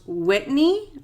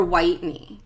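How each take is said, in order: First: "Whitney" with a short i, as in wit; short-i pronunciation. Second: "Whitney" with a long i, as in white; long-i pronunciation. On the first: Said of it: "if this was pronounced Whitney". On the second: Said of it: "'cause it's spelled like Whitney". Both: Shown as a demonstration.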